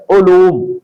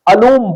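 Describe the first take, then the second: First: علوم opening on short u, "uloom"; درست تلفظ. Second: علوم opening on short a, "aloom"; غلط تلفظ. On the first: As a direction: say علوم as "u-loom". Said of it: "عین پر پیش ہے". (علوم، عین پر پیش کے ساتھ) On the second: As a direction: say علوم as "a-loom". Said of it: "عین پر زبر کے ساتھ". (علوم، عین پر زبر کے ساتھ) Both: Shown as a demonstration.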